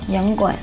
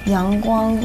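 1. 这是用安徽方言说的。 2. 这是用标准普通话说的。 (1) "所以我要学这个方言。是安徽话。" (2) "阳光，你们是怎么说？"

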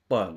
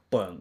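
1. เสียงนาสิกท้ายออกเสียงชัดเจนและแยกออกมาต่างหาก 2. เสียงนาสิกท้ายออกเสียงชัดเจนและแยกออกมาต่างหาก

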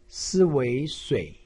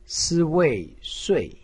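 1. 音高先降到低处，然后再上升。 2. 音高从高处急剧下降。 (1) "三声" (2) "四声"

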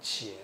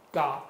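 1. 这个音节读 'qie'。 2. 这个音节读 'ga'。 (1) "转成我今天的普通话呢，或者国语呢，就是念成茄嘛" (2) "他本来要让你念嘎这个音嘛"

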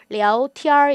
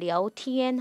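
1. 이 단어는 r 발음으로 끝나요. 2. 이 단어는 r 발음 없이 끝나요. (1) "뒤에 이렇게兒화 처리해서" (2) "깔끔하게"

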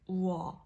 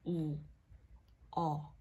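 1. Hai nguyên âm lướt nhanh vào nhau thành một âm tiết. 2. Hai nguyên âm được phát âm tách rời và rõ ràng.

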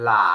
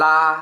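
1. พยางค์นี้ออกเสียงด้วยเสียงที่สาม 2. พยางค์นี้ออกเสียงด้วยเสียงที่หนึ่ง (1) "เสียงที่ 3" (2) "เสียงที่ 1"

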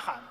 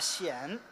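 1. 这个音节开头是 h 音。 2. 这个音节开头是 x 音。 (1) "呐喊不叫呐喊" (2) "那叫 呐显"

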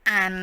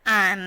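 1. พยางค์นี้ออกเสียงด้วยเสียงที่สองของภาษาจีนกลาง 2. พยางค์นี้ออกเสียงด้วยเสียงที่สองของภาษาจีนกลาง

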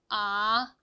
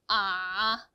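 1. 처음부터 끝까지 낮게 유지됩니다. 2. 처음부터 끝까지 낮게 유지됩니다.

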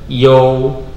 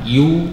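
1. Suku kata itu diucapkan sebagai yo. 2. Suku kata itu diucapkan sebagai yu. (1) "tapi yo" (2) "bukan yu"

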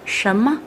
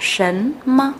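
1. Âm tiết đầu tiên kết thúc bằng âm m. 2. Âm tiết đầu tiên kết thúc bằng âm n. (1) "trong khẩu ngữ đọc thành sấm mơ" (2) "Từ này tuy là sấn mơ"

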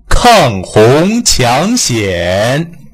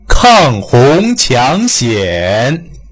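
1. 主要元音拉长，口型张大。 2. 主要元音拉长，口型张大。

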